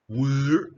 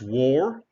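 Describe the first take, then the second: First: The vowel is an 'er' sound, like 'wur'. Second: The vowel is an 'or' sound, like 'wor'. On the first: The speaker calls it wrong. "it is not war" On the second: The speaker calls it right. "it's war"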